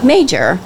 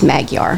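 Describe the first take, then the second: First: The name sounds like the word 'major'. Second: The name sounds like 'mag-yar', with two clear syllables. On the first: This is the simplified everyday form for phone calls. "when I'm talking to someone, like if I call the flower shop, I'll say [name]" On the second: This is the correct form of the name. "But anywhere else, it's Magyar"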